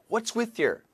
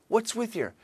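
The two takes are said the same way.

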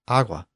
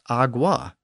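First: The G sound is barely pronounced at all. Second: The G sound is fully and clearly pronounced. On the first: The speaker calls it right. "The G is barely pronounced at all, and it comes out more like agua" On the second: The speaker calls it wrong. "it isn't even really pronounced agua"

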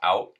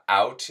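First: The final T is cut short or dropped. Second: The final T is clearly pronounced. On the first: "it becomes out" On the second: "hitting that T right on the nose"

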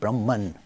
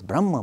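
First: The word ends with an n sound. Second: The word ends in a vowel, without n. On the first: This is the form used in English. "in English we make it Brahman" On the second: This is the original Sanskrit form. "The Sanskrit pronunciation is Brahma"

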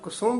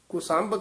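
First: The second syllable has a 'u' vowel. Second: The second syllable has an 'a' vowel. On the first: This is the correct recitation. The speaker calls it right. "ਕੁਸੁੰਭ ਹੀ ਉਚਾਰਨ ਕਰਨਾ" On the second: This is how people commonly say it. The speaker calls it wrong. "ਆਮ ਕੁਸੰਭ ਕਹਿ ਜਾਂਦੇ ਹਨ"

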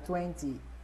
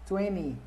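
First: The t after the n is pronounced. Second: The t after the n is dropped. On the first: "Ou, se quiser, pode falar 20" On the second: "Você tira o T e fala com o N e o Y"

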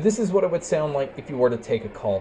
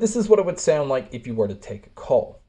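First: The voice is heard with crowd noise behind it. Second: The voice is heard without crowd noise behind it. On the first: "here is a mic test with a crowd noise being played" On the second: "There is a little bit of digital noise in the background"

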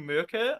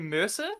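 First: The middle consonant is a hard k sound. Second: The middle consonant is a soft s sound. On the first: This is the intended way of saying it. "I know it's meant to be Merker" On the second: This is the speaker's own habitual way of saying it. "I say Mercer"

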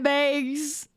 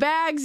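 First: The word is said in a Wisconsin accent. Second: The word is said in a general American accent. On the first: "you say bags" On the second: "Instead of bags"

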